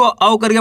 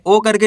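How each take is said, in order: First: "औ" as an open au diphthong; correct au sound. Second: "ओ" as a pure long o; wrong o sound. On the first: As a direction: say "औ" gliding from a to u. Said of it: "इसको औ करके पढ़ना है". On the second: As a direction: say "ओ" rounded, with no au glide. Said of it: "ओ करके नहीं पढ़ना". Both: Shown as a demonstration.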